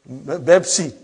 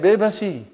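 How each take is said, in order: First: It is said with two syllables, no extra vowel. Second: It is said with an extra vowel, three syllables. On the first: This is how Arabic speakers say it. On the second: This is how Indian speakers say it. "they say Bebasi"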